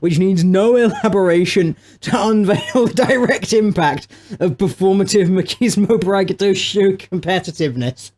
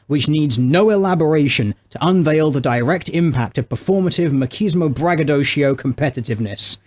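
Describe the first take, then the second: First: It is read with amusement, not composed. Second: It is read in a composed, serious tone.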